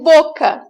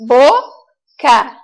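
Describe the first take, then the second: First: Said in the usual way. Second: "boca" split slowly into two syllables. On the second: Shown as a demonstration. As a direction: sound out "boca" with a gap between syllables. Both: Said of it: "colocar cada sílaba em um quadrinho".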